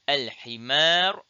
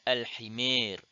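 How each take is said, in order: First: The final long vowel is a pure open a. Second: The final long vowel leans toward e.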